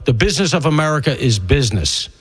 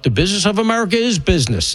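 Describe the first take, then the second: First: Said in the usual way. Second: "is" punched higher in "America is business"; stress on IS. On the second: Real, not acted. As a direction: lean hard on the word "is", pitched up. Repeats the quote to assert it.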